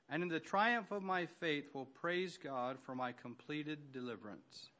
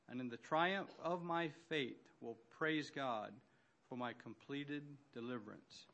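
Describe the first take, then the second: First: It is said at a faster pace. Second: It is said at a slower pace.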